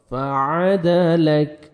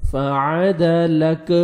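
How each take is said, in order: First: فعدلک with a thin, light کاف; correct recitation. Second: فعدلک with a heavy, thick کاف; wrong way. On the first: Teacher showing students the right فعدلک, light کاف. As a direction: say فعدلک slowly with a light final کاف sound. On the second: Teacher showing students how not to say فعدلک. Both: Shown as a demonstration. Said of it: "ایسے نہیں پڑھنا".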